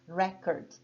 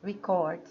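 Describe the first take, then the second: First: The stress is on the first syllable. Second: The stress is on the second syllable. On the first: It is a noun naming a best mark achieved. "a tônica está aqui, ó, na primeira parte, na primeira sílaba" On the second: It is a verb meaning to register or write down. "a sílaba tônica mudou agora, vai lá para a segunda parte"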